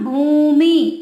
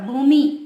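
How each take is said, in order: First: The final vowel is drawn out long. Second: The final vowel is kept short. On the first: The speaker calls it wrong. "बड़ी की मात्रा, बड़ा खींचते हैं उसे" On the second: The speaker calls it right. "छोटी की मात्रा"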